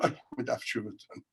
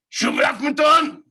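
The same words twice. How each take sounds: First: Muttered to himself. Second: High, loud mock scream at a stranger. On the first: Retold or imitated. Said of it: "I say to myself". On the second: Stranger on the bus screaming a correction at him. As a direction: yell it high as a crazed man on the bus. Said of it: "He starts screaming at me".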